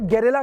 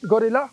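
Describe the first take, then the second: First: The first syllable has an 'e' vowel, like 'ge'. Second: The first syllable has an 'o' vowel, like 'go'. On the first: "company इसे गेरिल्ला four fifty ही बुलाती है।" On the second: "या गेरिल्ला कह लीजिए, जैसा लोग कहना चाहे"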